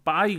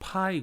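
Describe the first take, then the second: First: The p is said without a puff of air. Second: The p is said with a puff of air. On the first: The speaker calls it wrong. "빠이 그래요? 아니죠" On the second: The speaker calls it right. "파이 그러죠. 에스퍼레이시예요"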